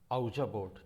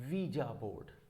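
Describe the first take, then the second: First: The first word begins with an 'ow' sound. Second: The first word begins with a 'wee' sound. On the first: The speaker calls it wrong. "Not आउजा board" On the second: The speaker calls it right. "This is वीजा board"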